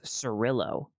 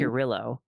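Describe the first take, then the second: First: The name begins with an S sound. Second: The name begins with a K sound. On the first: The speaker calls it wrong. "here I would pronounce this Cirillo, but I forgot" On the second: The speaker calls it right. "K is a K, and so it's"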